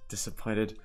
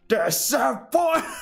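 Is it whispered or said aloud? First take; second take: whispered; aloud. First: It is whispered softly. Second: It is said aloud in full voice.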